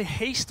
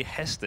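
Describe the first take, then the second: First: Haste, said as one syllable like English "haste"; pronounced Haste. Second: Hester, two syllables with a short e; pronounced Hester. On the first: Caster unsure how to say a player's name, pronounced Haste. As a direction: say Haste to rhyme with "paste". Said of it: "should I say Haste or should I say". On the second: Caster offers the other version of a player's name, pronounced Hester. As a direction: say Hester as HESS-ter. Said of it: "or should I say Hester". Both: Shown as a demonstration.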